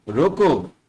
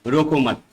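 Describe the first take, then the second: First: रोको alone, falling, then a stop; pause after रोको. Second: रोको मत as one falling unit; pause after मत. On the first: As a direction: cut off after रोको as its own command. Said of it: "शब्द के बाद थोड़ा सा रुक गया है". ("रोको" अकेला बोलकर रुकें) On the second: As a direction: run रोको straight into मत, then stop. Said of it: "शब्द के साथ थोड़ा सा रुक गया है". ("रोको मत" बिना रुके एक साथ) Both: Shown as a demonstration.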